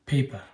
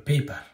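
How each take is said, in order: The two takes are said the same way.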